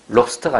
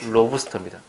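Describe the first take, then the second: First: The b sound closes the first syllable, no vowel. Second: An extra vowel follows the b sound. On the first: The speaker calls it wrong. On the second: The speaker calls it right.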